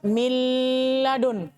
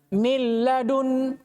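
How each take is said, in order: First: The sound before the l is held longer. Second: It moves straight into the l without holding. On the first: The speaker calls it wrong. "Tidak boleh dibaca" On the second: The speaker calls it right. "Ya langsung"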